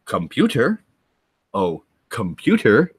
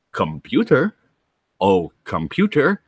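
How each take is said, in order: First: Lightly voiced puzzled Scotty; imitating Scotty. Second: Lightly voiced puzzled engineer; imitating Scotty. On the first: Scotty talks into the mouse, lightly voiced and puzzled. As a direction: speak into the mouse hopefully. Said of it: "and goes". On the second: Scotty addresses a computer, lightly voiced and puzzled. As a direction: talk to the machine as if it listens. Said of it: "he's like".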